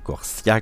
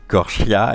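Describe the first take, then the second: First: The consonant after 'Cor' is an s sound. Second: The consonant after 'Cor' is not an s sound. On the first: The speaker calls it wrong. "comme j'avais pu le dire" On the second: The speaker calls it right. "Corchia et non Corsia"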